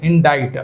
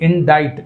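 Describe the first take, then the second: The two takes are said the same way.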